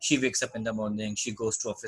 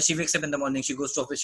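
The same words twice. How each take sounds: First: It is spoken at a slow pace. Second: It is spoken at a fast pace. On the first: The speaker calls it wrong. "ये नहीं बोलना है कि" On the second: The speaker calls it right. "इस तरह करके थोड़ा तेज़-तेज़ बोलना है।"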